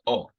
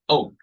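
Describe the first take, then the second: First: The vowel is plain with a level pitch. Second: The vowel is emphasized and drops in pitch. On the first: "a normal O without it" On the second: "You add more emphasis and you drop your tone"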